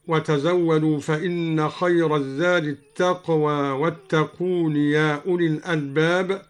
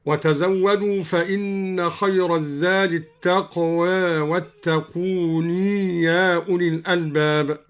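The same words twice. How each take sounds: First: Said in the usual way. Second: "التقوى" half-tilted to taqwe, "واتقون" ending in long nee; taqlil and sounded ya. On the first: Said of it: "قلل الدوري التقوى". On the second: Shown as a demonstration. Teacher shows al-Duri's reading, "التقوى" as taqwe, "واتقون" as wattaquunee. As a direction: tilt "التقوى" slightly, draw "واتقون" out to wattaquunee. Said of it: "قلل الدوري التقوى وأثبت".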